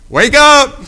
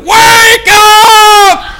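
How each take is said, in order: First: It is said quietly and timidly. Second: It is said loudly and forcefully.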